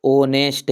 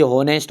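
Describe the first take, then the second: First: ऑनेस्ट said with a silent h, opening straight on the vowel; the right way, ऑनेस्ट with no h sound; correct pronunciation. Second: हॉनेस्ट said with a sounded h at the start; the common mistake हॉनेस्ट, breathy h before the vowel; wrong pronunciation. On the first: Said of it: "इसको पढ़िए वास्तविक क्या है". (ऑनेस्ट, बिना ह के) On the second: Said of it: "अपन पढ़ते भले ही हॉनेस्ट". (हॉनेस्ट, शुरू में ह बोलकर) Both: Shown as a demonstration.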